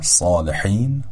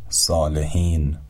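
First: صالحین with a throaty ḥ; صالحین with a pharyngeal ḥ; correct Arabic ḥ. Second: صالحین with an ordinary h; Persian h. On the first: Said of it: "به تلفظ صحیح این کلمات دقت بفرمایید". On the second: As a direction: say صالحین with a light breathy h. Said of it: "به جای". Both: Shown as a demonstration.

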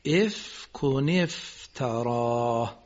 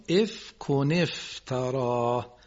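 First: افک افتراه slowly again, a final h on افتراه; careful recitation. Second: افک افتراه said very slowly with full vowels; careful recitation. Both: Shown as a demonstration. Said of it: "خیلی ممنون".

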